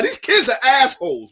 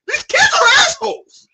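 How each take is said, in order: First: Said in the usual way. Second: Exasperated scream. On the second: Real, not acted. Ranting about the manga kids.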